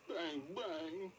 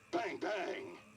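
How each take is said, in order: First: It is said in a sad tone. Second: It is said in an angry tone.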